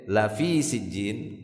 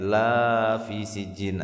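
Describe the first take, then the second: First: The vowel of the first word is kept short. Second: The vowel of the first word is drawn out long. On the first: It is truly in Sijjin. The speaker calls it right. "kalau pendek" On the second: It is not in Sijjin. The speaker calls it wrong. "jangan dibaca panjang ya. Nanti maknanya berbalik"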